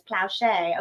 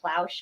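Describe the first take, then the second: First: The name is said the Cajun way. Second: The name is said the New Jersey way. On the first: The speaker calls it right. "I'm Cajun, it's Plauchet" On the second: The speaker calls it wrong. "I was saying Plauche because I'm from New Jersey"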